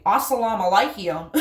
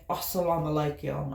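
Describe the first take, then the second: First: "Assalamu alaikum" in broad Appalachian, louder, laughing; exaggerated Appalachian accent. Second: "Assalamu alaikum" said softly and carefully, lower; careful attempt. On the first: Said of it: "That's an exaggeration of my accent". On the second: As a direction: try "Assalamu alaikum" as well as you can, gently. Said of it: "I try to say it as best I can". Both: Shown as a demonstration.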